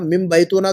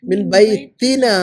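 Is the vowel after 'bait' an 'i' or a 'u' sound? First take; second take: u; i. First: The vowel after 'bait' is a 'u' sound. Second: The vowel after 'bait' is an 'i' sound. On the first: The speaker calls it wrong. "मिन बैतूना थोड़ी पढ़ेंगे" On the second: The speaker calls it right. "मिन जब आता है तो आगे वाले लफ्ज़ पर ज़ेर लगाते"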